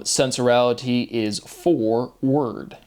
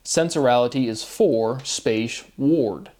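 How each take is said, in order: First: Slow, with FOR and WORD apart, ending like "word"; word pronunciation. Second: Slow, WARD rhyming with "ford", set apart after "space"; ward as in warden. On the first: Explaining a wordplay to listeners, slow, separated "for word". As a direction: say "for word" as two words, ending in WORD. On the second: Spelling out wordplay for listeners, slow, distinct "ward". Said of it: "like a warden, W A R D". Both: Shown as a demonstration.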